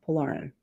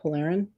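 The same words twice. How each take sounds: First: Polarin said "po-LAR-in", falling; Polarin, middle syllable like "lar"; original pronunciation. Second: Polarin said "po-LAIR-in", questioning; Polarin? with middle syllable like "lair"; trying a pronunciation. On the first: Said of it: "that's how I said it first". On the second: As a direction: say Polarin with an AIR middle vowel, rising. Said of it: "now I don't know". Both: Shown as a demonstration.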